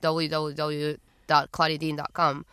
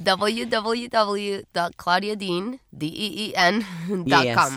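First: It is said at a normal speed. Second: It is said slowly and carefully.

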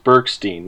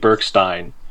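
First: The name is said with an American pronunciation. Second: The name is said with a German pronunciation. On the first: "the American version is" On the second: "in German, it would be"

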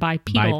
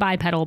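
First: The word is pronounced the British way. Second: The word is pronounced the usual American way. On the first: The speaker calls it wrong. "you said bipedal. / Bipedal is the way people in Britain pronounce it" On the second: The speaker calls it right. "you meant to say bipedal"

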